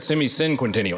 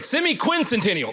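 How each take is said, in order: First: The middle sounds like 'cinquen', syllables swapped. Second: The middle sounds like 'quincen', in standard order. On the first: The speaker calls it wrong. "I think I said semi-cinquentennial" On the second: The speaker calls it right. "is the right way to say it"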